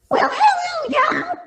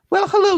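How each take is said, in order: First: It is said in a put-on girl voice. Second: It is said in a normal voice. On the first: "let's try the girl voice" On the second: "We're going back"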